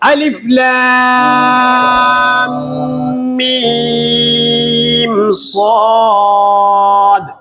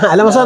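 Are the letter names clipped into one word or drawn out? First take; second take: drawn out; clipped. First: Each letter name is said separately and lengthened. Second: The letters run together as one short word. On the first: The speaker calls it right. "ഇങ്ങനെയാണ്" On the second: The speaker calls it wrong. "അലമസ അലമസ എന്നാണോ? അല്ല"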